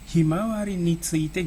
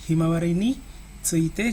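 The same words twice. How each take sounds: First: Ni tsuite is joined without a break. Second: There is a break around ni tsuite. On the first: The speaker calls it right. "ni tsuite-nya disambung sebenarnya" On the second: The speaker calls it wrong. "kalau diucapkan itu ya misalnya"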